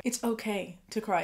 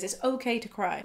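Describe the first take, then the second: First: "it's" hit first and firmest; stress on it's. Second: "okay" leaned on, falling at the end; stress on okay. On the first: Host repeats it to any guy watching, stressing "it's". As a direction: punch "it's", the rest even. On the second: Host reassures male viewers, stressing "okay". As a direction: land on "okay" and let it drop. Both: Real, not acted.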